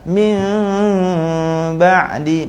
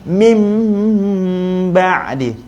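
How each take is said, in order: First: The lips stay slightly apart during the m. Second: The lips close firmly with pressure on the m. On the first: The speaker calls it wrong. "bibir saya tak rapat" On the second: The speaker calls it right. "bibir saya rapat dan tekan"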